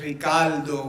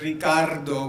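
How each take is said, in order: First: It is said in a Puerto Rican accent. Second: It is said with a trilled standard R.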